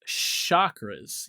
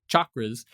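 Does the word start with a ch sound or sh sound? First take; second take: sh; ch. First: The word begins with a sh sound. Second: The word begins with a ch sound. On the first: The modern seven-part system is meant. "usually pronounced chakras, you know, like a like sh sound" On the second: The original traditional term is meant. "the original Sanskrit pronunciation is like chocolate"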